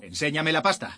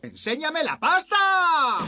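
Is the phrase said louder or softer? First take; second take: softer; louder. First: It is said at a quieter, normal volume. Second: It is said much louder, almost shouted. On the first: The speaker calls it wrong. "No te oigo. Dímelo más alto" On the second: The speaker calls it right. "¡Más alto!"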